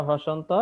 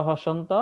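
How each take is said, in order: The two takes are said the same way.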